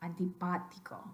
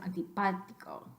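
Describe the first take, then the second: Both takes have the same delivery.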